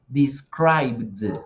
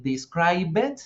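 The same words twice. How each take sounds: First: "described" said "dis-kraibd", no vowel before the D; falling "described" with a voiced "bd" finish; correct D ending. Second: "describe it" as three syllables, "dis-krai-bet", rising; wrong-way "describe it" with an extra final syllable; wrong past ending. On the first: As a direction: slowly join B and D at the end of "described". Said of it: "yo voy a decir". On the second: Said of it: "no voy a decir". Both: Shown as a demonstration.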